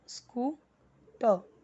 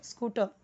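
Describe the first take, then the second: First: scooter slowly as "scoo", pause, "ter"; broken into syllables. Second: Said in the usual way. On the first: Shown as a demonstration. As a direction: split scooter for a beginning reader. (Scooter को "स्कू... टर" तोड़कर, धीरे) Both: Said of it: "S C double O".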